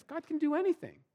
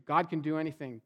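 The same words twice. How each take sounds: First: Much higher, sing-song and empty; mock-bright assurance that rings hollow; hollow, overblown confidence. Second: Said in the usual way. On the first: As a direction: say it like a cheerful slogan you don't believe. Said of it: "in my head, I would say".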